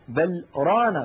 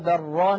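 First: There is a short pause between the words. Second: The words run together with no pause. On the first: "أن يعلم السامع أن بل أداة، ورانا فعل مستقل عنها" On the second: "لو وصلنا لتعين علينا أن نقول"

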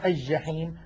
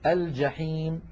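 First: The L blends into a doubled first consonant. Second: The L is clearly pronounced before the consonant. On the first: The speaker calls it wrong. "هذا لا يصح" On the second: The speaker calls it right. "الفصحى"

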